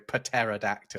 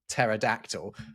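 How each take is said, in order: First: The word starts with a sounded p and t. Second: The word starts with a plain t sound. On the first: "we would have to go" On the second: "in English we don't pronounce them when we see them like that"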